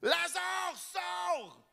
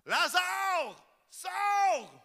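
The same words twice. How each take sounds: First: High ringing command held back from the mic; strong voice. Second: High, ringing command to the dead man; loud call. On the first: Preacher repeats Jesus's call, high but held back from the mic. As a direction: call out without blasting the mic. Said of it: "J'ai pris une voix forte, mais je ne vous ai pas pété les oreilles". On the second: Preacher voices Jesus calling Lazarus from the tomb, high and commanding. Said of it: "il cria d'une voix forte". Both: Acted.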